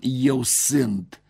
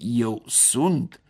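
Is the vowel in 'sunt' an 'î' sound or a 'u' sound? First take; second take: î sound; u sound. First: The verb is said with an î vowel. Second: The verb is said with a u vowel. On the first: This is the older form, no longer used. The speaker calls it wrong. "Nu mai scriem, nici pronunțăm" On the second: This is the current standard form. The speaker calls it right.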